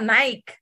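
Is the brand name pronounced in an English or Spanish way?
Spanish. The name is pronounced with Spanish sounds. This is how it is said in Mexico. "Vamos a Nike"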